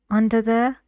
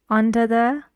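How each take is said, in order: The two takes are said the same way.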